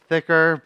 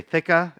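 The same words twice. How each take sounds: First: Said in the usual way. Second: THICKA with a dropped final R, Boston style; Boston accent. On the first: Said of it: "I could say thicka". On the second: Shown as a demonstration. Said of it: "my Boston accent isn't thicker".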